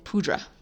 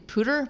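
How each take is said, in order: First: The word ends with a 'dra' sound. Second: The word ends with a 'ter' sound. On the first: The speaker calls it wrong. "but they saying pudra" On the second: The speaker calls it right. "they were trying to say pooter"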